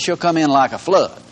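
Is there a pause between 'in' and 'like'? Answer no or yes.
no. There is no pause after 'come in'. The enemy comes like a flood. "the way we've read it and the way it's punctuated"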